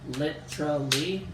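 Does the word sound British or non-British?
British. The word is said with a British-sounding pronunciation. "I go kind of British"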